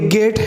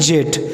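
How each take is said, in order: First: The word begins with a hard g sound. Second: The word begins with a j sound. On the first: The speaker calls it right. "तो ये गेट है ना" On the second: The speaker calls it wrong. "ना कि जेट"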